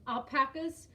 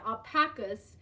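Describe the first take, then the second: First: "alpacas" with a short A, al-PACK-uhs; "alpacas" rhyming its middle with "back", tentative; unsure pronunciation. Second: "Alpacas" with broad ah, al-PAH-kuhs; "Alpacas" with its middle vowel as in "father"; corrected pronunciation. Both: Shown as a demonstration. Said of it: "I hope I'm saying that right".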